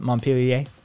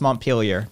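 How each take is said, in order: First: The name is said with a French pronunciation. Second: The name is said with an American pronunciation. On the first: This is the original pronunciation of the name. The speaker calls it right. "the correct pronunciation" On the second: This is how the Vermont town is named. The speaker calls it wrong. "in Vermont it's Montpelier"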